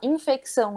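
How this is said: It is said with a Brazilian Portuguese pronunciation. This is how people at home say it. "a gente fala infecção"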